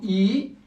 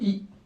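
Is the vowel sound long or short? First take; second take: long; short. First: The vowel is held long. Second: The vowel is kept short.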